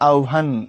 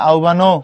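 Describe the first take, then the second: First: The word ends abruptly on the n consonant. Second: The word ends with an added final o vowel. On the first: The speaker calls it right. "এটা গিয়ে আটকে যাবে আহ্বান" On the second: The speaker calls it wrong. "নইলে তো পড়তে হবে আহ্বানো"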